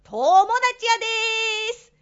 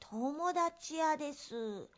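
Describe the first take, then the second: First: It is said in a loud, raised voice. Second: It is said in a small, quiet voice.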